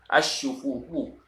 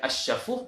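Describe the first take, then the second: First: The vowel after sh is u. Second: The vowel after sh is a. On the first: The speaker calls it right. "bi dhammi syini dengan dhammah syin" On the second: The speaker calls it wrong.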